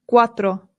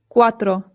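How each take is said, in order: Both takes have the same delivery.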